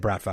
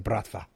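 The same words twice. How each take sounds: First: It is said in a plain English accent. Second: It is said in a Russian accent. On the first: "When I say Bratva" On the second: "I can't do it without doing a Russian accent"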